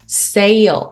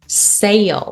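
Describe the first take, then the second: The two takes are said the same way.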